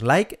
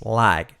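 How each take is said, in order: First: "like" with a hard final k; wrong pronunciation. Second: "like" with a drawn glide and softened k; correct pronunciation. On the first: Teacher showing the error, mispronounced "like". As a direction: mispronounce "like" with a Spanish-style k. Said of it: "no es like". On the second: Teacher correcting learners, correct "like". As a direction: say "like" as "laig". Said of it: "es like". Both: Shown as a demonstration.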